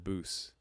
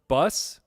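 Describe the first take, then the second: First: The vowel is a long 'oo' sound. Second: The vowel is short, as in 'bus'. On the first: The speaker calls it wrong. "I said Boos" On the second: The speaker calls it right. "Frank says it's pronounced bus"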